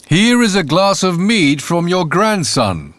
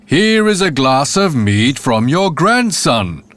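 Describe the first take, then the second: First: Said in the usual way. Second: Bawled out. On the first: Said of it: "said the landlord". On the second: Acted. Landlord bawling at the silent grandmother, slow bellow. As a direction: bellow it slowly to a deaf ear. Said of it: "Again and again he bawled it out".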